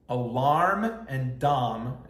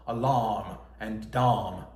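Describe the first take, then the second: First: "alarm" and "dom" said slowly in an American accent, with an R in "alarm", so they clearly don't rhyme; slow American reading of "alarm" and "dom". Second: "alarm" and "dom" slow and lower in a British accent, with no R in "alarm", so both end in the same "ahm"; lower, slow British reading of "alarm and dom" to show the rhyme. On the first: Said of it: "If you say this with an American accent". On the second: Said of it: "like, a British dialect". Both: Shown as a demonstration.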